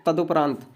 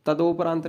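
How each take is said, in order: First: Short u in तदुपरांत; teacher's corrected u vowel; correct pronunciation. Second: Long o in तदोपरांत; teacher showing the o-vowel mistake; wrong pronunciation. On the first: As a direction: say तदुपरांत as ta-du-praant. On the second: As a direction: say तदोपरांत as ta-do-praant. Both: Shown as a demonstration. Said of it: "तदोपरांत नहीं तो तदुपरांत".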